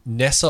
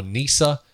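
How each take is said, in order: First: Nessa with a short e; NESS-a, short open first vowel; alternative pronunciation. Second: Nisa with a long ee; NEE-sa, long first vowel; alternative pronunciation. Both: Shown as a demonstration. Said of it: "they just keep calling him Nisa".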